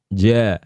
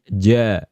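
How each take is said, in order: No difference in how they are said.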